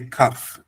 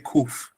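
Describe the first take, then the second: First: The vowel is an 'ah' sound. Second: The vowel is an 'oo' sound. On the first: This is closer to the original pronunciation. "but we say kaf"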